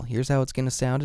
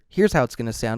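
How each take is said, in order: First: Full unfiltered sound with strong close-up bass. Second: Both bass and high frequencies are trimmed back. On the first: "in flat mode" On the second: "if you engage that low cut and high cut filter"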